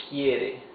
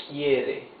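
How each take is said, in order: Both takes have the same delivery.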